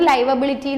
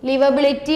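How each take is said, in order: First: The first vowel is long, as in 'five'. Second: The first vowel is short, as in 'give'. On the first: "ഞാൻ പറയുന്നത് ലൈവബിലിറ്റി എന്നാണ്" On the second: "ലിവബിലിറ്റി or ലൈവബിലിറ്റി"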